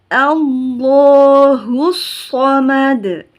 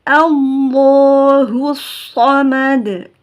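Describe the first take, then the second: No difference in how they are said.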